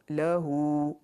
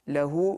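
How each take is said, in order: First: The final vowel is stretched out. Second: The final vowel is short. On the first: The speaker calls it right. "little bit of a stretch and drag" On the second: The speaker calls it wrong.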